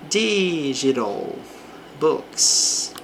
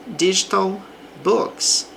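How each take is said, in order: First: The middle consonant is a quick R-like flap. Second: The middle consonant is a clear T sound.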